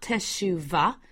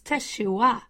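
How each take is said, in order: First: The middle consonant is a V sound. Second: The middle consonant is a W sound. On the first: The speaker calls it wrong. "they say teshuvah with a V" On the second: The speaker calls it right. "a W sound"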